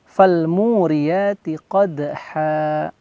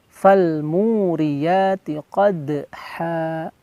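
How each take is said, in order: The two takes are said the same way.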